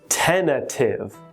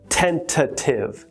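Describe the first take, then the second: First: The second T is dropped, sounding like tenna-tive. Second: The second T is clearly pronounced in the word. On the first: The speaker calls it right. "tentative is pronounced like this" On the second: The speaker calls it wrong. "So we don't say tentative"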